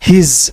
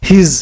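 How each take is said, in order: First: One contracted syllable ending in a z sound. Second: The same.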